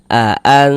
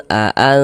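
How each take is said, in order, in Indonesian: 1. Bunyi n kabur dan bersengau. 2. Bunyi n kabur dan bersengau.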